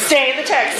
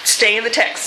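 First: Put-on light Southern accent on stay in the text. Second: Said in the usual way. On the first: Preacher mimics professor's advice in a mild Southern accent. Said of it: "in his best Southern accent". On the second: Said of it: "Doctor Jerry Burns always told us".

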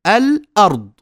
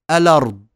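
First: الأرض split al-ard, higher and louder; full hamza. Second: الأرض run together as a-lard; hamza vowel transferred. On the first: Teacher showing the original, hamza fully sounded. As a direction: catch the throat after the lam in الأرض. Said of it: "نأخذ فتحة الهمزة". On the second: Teacher showing naql, lam takes the hamza's vowel. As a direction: slide lam straight into the vowel of الأرض, no catch. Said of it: "ثم نحذف الهمزة فتصير". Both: Shown as a demonstration.

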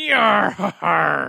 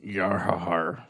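First: Slow laughing pirate yar. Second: Slow, low pirate growl. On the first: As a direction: chuckle through a pirate yar. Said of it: "give us a little bit of it". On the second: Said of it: "Daly could sing like a pirate". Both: Pretend.

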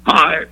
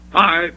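First: Radio DJ hello. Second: Louder, punchier retake; radio DJ hello. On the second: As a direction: give the Hi more punch. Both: Acted. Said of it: "that's how he really does it".

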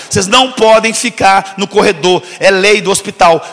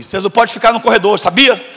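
First: Slow and louder, each word laid down; firm repeat. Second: Said in the usual way. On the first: Retold or imitated. Mistaken for a doctor, he repeats the rule to students, slow and firm. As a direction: lay down the hospital rule, slowly.

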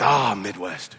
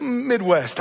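First: Imitated Scottish old lady, much lower; low, lightly Scottish echo of the reply; Scottish accent. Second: Said in the usual way. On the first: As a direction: play the Scottish neighbor catching on. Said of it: "with her thick Scottish accent". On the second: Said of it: "I said".

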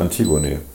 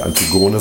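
First: „Antigone“ as An-TI-gone; richtige Betonung. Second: „Antigone“ as Anti-GO-ne; falsche Betonung. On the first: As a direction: stress the second syllable of „Antigone“. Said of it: "da wird die zweite Silbe betont". („Antigone“ richtig auf TI betont) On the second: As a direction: stress the third syllable of „Antigone“. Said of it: "Das heißt ja auch nicht". („Antigone“ falsch auf GO betont) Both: Shown as a demonstration.

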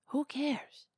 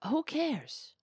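No difference in how they are said.

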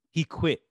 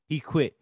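No difference in how they are said.

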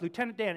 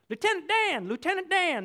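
First: Said in the usual way. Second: Higher, louder excited call; Forrest Gump calling. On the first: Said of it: "This is the guy he loves". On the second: Retold or imitated. Forrest calling to Lieutenant Dan, higher and louder. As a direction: call out to the friend you love. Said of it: "this guy he loves".

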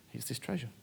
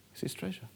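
First: Said in the usual way. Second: A breathy whisper of "It's this treasure". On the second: Shown as a demonstration. Preacher whispers the repeat to the congregation. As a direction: lean in and whisper "treasure" like a secret.

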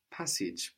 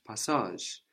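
First: "passage" the English way, ending in a j sound; English pronunciation. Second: "passage" the French way, pah-SAHZH; French pronunciation. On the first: Teacher linking the word to pass, English pronunciation. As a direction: say "passage" with English short vowels, PASS-idge. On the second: Teacher linking the word to pass, French pronunciation. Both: Shown as a demonstration. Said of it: "is related to pass".

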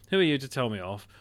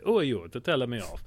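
First: Said in the usual way. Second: Lightly imitated Italian accent; a hint of mock Italian indignation; Russell Crowe's Italian accent. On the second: Exorcist rebutting his Vatican critics, lightly mimicked Italian accent. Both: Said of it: "he's basically like".

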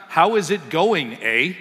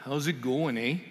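First: "How is it going, eh?" slow and loud, every word separate; over-careful "How is it going, eh?", each word pulled apart, breaking into a laugh; wrong, spelled out. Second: "How's it going, eh?" softer and run together quickly; casual "How's it going, eh?", the words blurred into one another; right, run together. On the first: Pastor showing the congregation the wrong way to say it, loud and slow. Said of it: "It's not". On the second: Pastor showing the congregation the real Canadian greeting, soft and run together. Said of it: "It's literally". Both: Shown as a demonstration.

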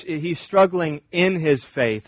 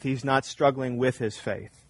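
First: In hit firmly; stress on in. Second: Not pressed, softer line; stress on not. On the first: Preacher contrasting faith and doubt, pressing "in". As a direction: lean on the word "in" in "struggling in his faith". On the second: Preacher contrasting faith and doubt, pressing "not". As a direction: drop the voice and lean on "not", then "with". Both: Shown as a demonstration. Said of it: "There's a difference".

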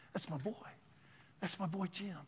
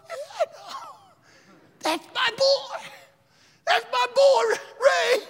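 First: Soft, much quieter than usual talk; quiet fatherly pride. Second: Imitating weeping parents, high and strained; tearful proud yell. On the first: Retold or imitated. God telling of his faithful servant, quiet pride. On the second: Tearful parents boasting of their son, crying shout. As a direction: cry it out loud with overflowing pride. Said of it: "They got tears streaming down their eyes".

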